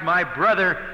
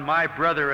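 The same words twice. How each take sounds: First: "brother" carries the weight, "my" passed over lightly; tender stress on "brother", not on "my". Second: "my" pushed and leaned on, "brother" falling away; stress on my. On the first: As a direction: land on "brother" in "my brother". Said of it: "Mary's statement ... emphasized". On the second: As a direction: lean hard on "my" in "my brother". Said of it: "Martha's greeting laid emphasis on". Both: Shown as a demonstration.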